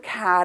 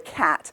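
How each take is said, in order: First: The word sounds warm and fond. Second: The word sounds displeased and negative. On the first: The speaker likes cats. "So I say cat in a positive way because I like cats" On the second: The speaker dislikes cats. "If you didn't like cats, you'd say"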